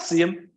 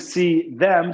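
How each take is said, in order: First: The word them is shortened and linked to see. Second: The word them is said fully with its first sound. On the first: "we like to make that into him" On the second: "Instead of saying see them"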